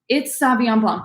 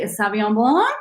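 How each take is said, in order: First: The voice falls firmly at the end. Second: The voice rises at the end like a question. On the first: The speaker is certain of the answer. The speaker calls it right. "Just say it with confidence" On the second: The speaker is unsure and guessing. The speaker calls it wrong. "Don't say it with a question mark"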